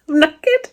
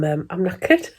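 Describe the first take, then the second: First: Squeaked high, tired and silly; high squeaky exhausted. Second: Said in the usual way. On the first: Real, not acted. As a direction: squeak it like you're worn out.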